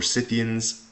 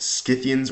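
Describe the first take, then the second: First: "Scythians" starting with a plain S; soft C pronunciation. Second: "Scythians" starting with SK; hard C pronunciation. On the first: Weighing two pronunciations for students, "Scythians" with plain S. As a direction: say "Scythians" as SITH-ee-ans. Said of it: "in modern English, it's Scythians". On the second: Weighing two pronunciations for students, "Scythians" with SK. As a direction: say "Scythians" as SKITH-ee-ans. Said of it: "not really sure if it's". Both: Shown as a demonstration.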